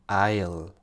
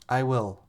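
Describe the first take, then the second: First: The words are joined into one short syllable. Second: Two separate words are said in full.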